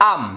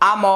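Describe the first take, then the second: First: আম as one syllable, ending on m; closed final consonant. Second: আম said in two syllables as a-mo; open final vowel. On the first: Teacher showing the correct Bangla reading, final m closed. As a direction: close আম on the m without a vowel. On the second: Teacher spelling a Bangla example, final vowel sounded. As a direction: let আম end on an open o. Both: Shown as a demonstration. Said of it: "কিন্তু উচ্চারণ হবে".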